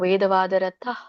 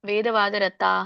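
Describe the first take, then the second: First: The final 'h' sound is only lightly breathed. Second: The final 'ha' sound is fully pronounced. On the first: The speaker calls it right. "ಅಲ್ಪವಾಗಿ ಹೇಳ್ಬೇಕು ನಾವು" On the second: The speaker calls it wrong. "ವೇದವಾದರತಾಹ ಅಂತ ಹೇಳ್ಬೇಡಿ"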